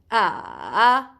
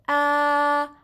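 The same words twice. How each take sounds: First: The pitch dips down and then rises. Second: The pitch stays level and flat. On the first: "you go from down, from up to down to up" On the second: "you go straight with your voice"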